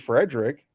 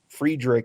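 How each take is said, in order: First: The name is said with an Americanized pronunciation. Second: The name is said with its original-style pronunciation. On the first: "that would be the more, you know, Americanized version of it" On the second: "is probably closer to what it's supposed to be"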